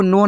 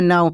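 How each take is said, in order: First: No with a plain o vowel, for "now"; misreading. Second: Now with an ow glide; correct reading. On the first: Teacher warning learners off a misreading, no with pure o. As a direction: read now wrongly as no. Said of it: "आपको no नहीं पढ़ना". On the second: Teacher giving the right reading, Now with ow. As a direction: say Now to rhyme with cow. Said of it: "आपको क्या पढ़ना है?". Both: Shown as a demonstration.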